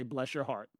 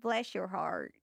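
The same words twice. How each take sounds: First: Lower, softer Southern "Bless your heart" demo. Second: A first try at a Southern "Bless your heart", still close to her own voice; trying a Southern accent. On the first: Shown as a demonstration. Showing her co-host the Southern phrase, low and soft. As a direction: say it sweetly Southern with a little bite. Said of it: "You say". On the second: Retold or imitated. Copying the host's Southern phrase, a tentative try. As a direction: attempt the Southern phrase, not quite there yet. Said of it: "I'm getting there".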